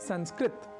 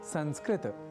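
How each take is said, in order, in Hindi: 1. शब्द एक सादे त की ध्वनि पर समाप्त होता है। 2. शब्द त के बाद एक छोटे अ के साथ समाप्त होता है। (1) "संस्कृत न कहकर" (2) "त अर्थात तकार के बाद अ या आकार के प्रयोग के साथ उच्चारित करना चाहिए"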